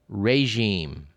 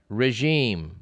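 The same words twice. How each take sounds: First: The first syllable sounds like 'ray'. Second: The first syllable does not sound like 'ray'. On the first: The speaker calls it right. "the first syllable is supposed to sound as ray" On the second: The speaker calls it wrong. "you may pronounce it regime"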